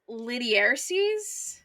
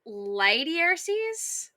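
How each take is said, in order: First: The first syllable rhymes with 'bit'. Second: The first syllable rhymes with 'by'. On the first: "in my head, I'm always like" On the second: "the video that I listened to was like"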